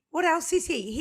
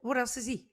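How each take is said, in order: First: High, loud mock amazement; mock-astonished repeat; excited repeat. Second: Said in the usual way. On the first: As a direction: pitch it up, playfully amazed. Teasing cohost, repeated higher.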